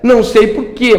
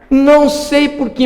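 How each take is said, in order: First: The last vowel is a full stressed 'e'. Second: The last vowel is reduced toward an 'i' sound. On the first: The speaker calls it right. "E é tônico também" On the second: The speaker calls it wrong. "colocar esse sonzinho aqui, ó. ... mas acho ruim, né? Não dá"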